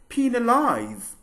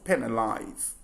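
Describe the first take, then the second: First: The key vowel is a long ee sound. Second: The key vowel is not an ee sound. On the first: The speaker calls it right. "the word is pronounced as penalize" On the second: The speaker calls it wrong. "and not penalize"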